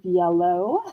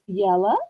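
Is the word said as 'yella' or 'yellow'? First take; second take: yellow; yella. First: It ends in an 'oh' sound, like 'yellow'. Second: It ends in an 'uh' sound, like 'yella'. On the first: "instead of yellow" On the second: "when she says yellow"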